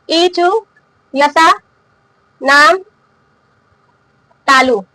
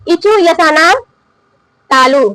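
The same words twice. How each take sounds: First: इचु, यशा, नाम, तालु each said alone with long pauses between; slow dictation. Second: Said in the usual way. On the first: Shown as a demonstration. Teacher dictating the sutra for students to write, slowly. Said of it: "तो लिख लीजिए". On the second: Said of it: "इसका सूत्र क्या है?".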